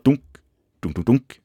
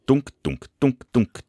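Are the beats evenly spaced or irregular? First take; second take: irregular; even. First: The beats come in an uneven, chaotic rhythm. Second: The beats come in a steady, even rhythm. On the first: The heart chambers beat out of sync. "Sånn som det. Helt i kaos" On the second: The heart chambers beat in sync. "timer og tilrettelagt"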